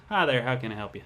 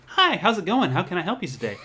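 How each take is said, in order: First: A little country twang, unforced; slight country accent. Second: High-pitched, upbeat customer-service greeting; work radio voice. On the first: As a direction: greet a customer with a light country twang. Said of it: "I unintentionally do a country accent". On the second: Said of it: "I kind of do a radio voice". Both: Shown as a demonstration.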